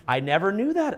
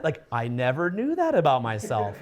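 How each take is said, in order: First: Said in the usual way. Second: Low, amused self-discovery; surprised realization. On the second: Shown as a demonstration. Coach showing a student, lower and amused. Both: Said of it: "try being like".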